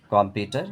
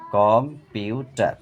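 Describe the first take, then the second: First: Said in the usual way. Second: কম্পিউটার slow as কম, পিউ, টার; split in three syllables. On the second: Shown as a demonstration. Teacher breaking a word for pupils, কম্পিউটার slowly in three parts. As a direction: give কম্পিউটার three separate beats. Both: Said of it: "তিনবারে ভেঙে উচ্চারণ করা হয়".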